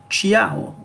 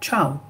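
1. On entend un son 'ee' avant le 'ao'. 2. On n'entend aucun son 'ee' avant le 'ao'. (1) "nous n'allons pas lire CHIAO" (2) "on ne prononce pas le I"

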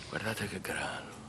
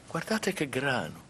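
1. Il tono varia solo poco, di mezzo tono. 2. Il tono varia molto, intonazione marcata. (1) "se tu la vedi veramente, ... C'è mezzo tono" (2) "Non farmi vedere"

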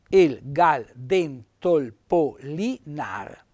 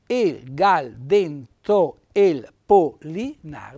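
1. Una vocale si elide, quindi il verso ha sette sillabe. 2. La vocale si pronuncia per intero, quindi il verso ha otto sillabe. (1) "sette sillabe" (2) "se io adesso tolgo l'apostrofo e metto la E ... diventa otto"

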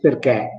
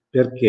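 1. La vocale finale è una e aperta, esagerata. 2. La vocale finale è una e chiusa. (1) "Io adesso accentuo, esaspero un pochettino la E" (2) "In italiano si dice perché in lingua"

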